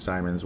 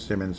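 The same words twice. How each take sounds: First: "Simons" with a long i, as in "time"; first syllable of "Simons" rhymes with "time"; alternative name pronunciation. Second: "Simmons" with a short i, as in "him"; first syllable of "Simmons" rhymes with "him"; alternative name pronunciation. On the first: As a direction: say "Simons" as SIGH-munz. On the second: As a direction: say "Simmons" as SIM-unz. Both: Shown as a demonstration. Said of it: "whatever the heck you say".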